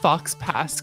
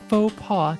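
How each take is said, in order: First: It is said like the English words 'fox pass'. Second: It is said the French way, 'foh pah'.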